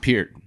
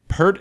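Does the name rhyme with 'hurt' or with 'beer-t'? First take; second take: beer-t; hurt. First: The vowel sounds like the one in 'peer'. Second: The vowel sounds like the one in 'hurt'. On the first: This is the name's actual pronunciation. The speaker calls it right. "It's [name]" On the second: This is how Americans say the name. The speaker calls it wrong. "Pert is like how the Americans say it"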